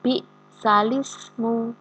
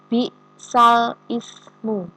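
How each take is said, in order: First: The l links straight into ismu, no stop. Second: A glottal stop separates al from ismu. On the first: This is the word as it is recited. The speaker calls it right. "Bacanya adalah bi'salismu" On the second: This is the word as it is written. The speaker calls it wrong. "tulisannya adalah bi'sal ismu"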